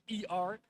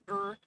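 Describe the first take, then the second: First: It is spelled out as two letters. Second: It is said as one syllable, 'er'. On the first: "English speaking people would pronounce it as E R" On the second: "or as er"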